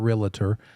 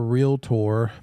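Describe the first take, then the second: First: An extra vowel sound comes between L and T. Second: No extra vowel sound comes between L and T. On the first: The speaker calls it wrong. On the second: The speaker calls it right.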